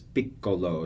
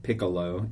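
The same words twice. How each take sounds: First: The double c sound is held long. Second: The double c sound is short. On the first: The speaker calls it right. "you dwell on that double consonant" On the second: The speaker calls it wrong. "It's not like piccolo"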